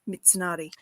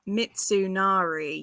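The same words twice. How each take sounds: First: The vowels are kept short. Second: The vowels are drawn out long. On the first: The speaker calls it right. "you're very short. Don't elongate anything" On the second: The speaker calls it wrong. "the biggest mistake that people make is elongating the vowels"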